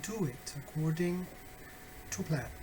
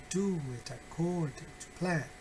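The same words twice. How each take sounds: First: "Do it according", short pause, then "to plan"; natural but rhythmic "Do it according to plan"; more natural rhythm. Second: Singsong, measured "Do it according to plan"; sing-song rhythm. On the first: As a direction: say "Do it according to plan" as speech, keeping the beat. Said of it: "try to make it more natural". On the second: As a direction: chant "Do it according to plan" to a regular beat. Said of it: "you don't have to sing it". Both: Shown as a demonstration.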